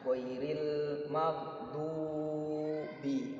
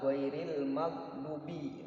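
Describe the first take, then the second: First: The marked vowels are held long. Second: The marked vowels are cut short. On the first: The speaker calls it right. "nah, panjang" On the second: The speaker calls it wrong. "Bukan ... nah, harus panjang"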